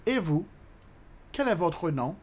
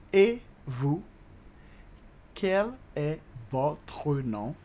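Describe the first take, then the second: First: Said in the usual way. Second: "Et vous? Quel est votre nom?" very slow, word by word; slow teaching demo. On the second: Shown as a demonstration. Teacher repeating the French question for learners, "Et vous? Quel est votre nom?" very slowly.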